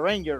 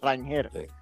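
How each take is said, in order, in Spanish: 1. El nombre se dice con una pronunciación al estilo inglés. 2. El nombre se dice con una pronunciación al estilo español. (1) "en Estados Unidos, obviamente, todo el mundo le llama Ranger" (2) "Pero su nombre, o como estuvo concebido en su momento, era Rangel"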